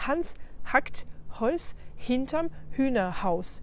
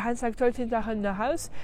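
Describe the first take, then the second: First: The words are separated by short breaks. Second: The words run together without breaks. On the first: The speaker calls it right. "ils vont couper un peu les mots entre eux" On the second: The speaker calls it wrong. "on n'y comprend rien"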